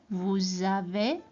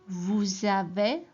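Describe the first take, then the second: No difference in how they are said.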